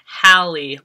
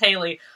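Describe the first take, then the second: First: The first syllable sounds like 'Hal'. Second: The first syllable sounds like 'Hay'. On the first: "it has the pronunciation Hallie, like Halle Berry" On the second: "my initial thing was to read it as Haley"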